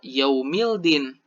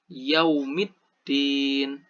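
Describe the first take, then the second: First: The L is pronounced clearly before the D. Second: The L merges into a doubled D sound. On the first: The speaker calls it wrong. "Bukan dibaca secara yaumildin" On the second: The speaker calls it right. "Cara membaca yang benar dari alif lam syamsiah yaitu yaumiddin"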